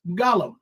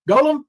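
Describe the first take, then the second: First: "Gollum" with an open ah up front; short-o pronunciation. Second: "Golem" with a long o, like goal; long-o pronunciation. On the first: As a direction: say "Gollum" as GAH-lum. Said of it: "if it's Gollum". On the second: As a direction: say "Golem" as GOH-lum. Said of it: "if it's a Golem". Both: Shown as a demonstration.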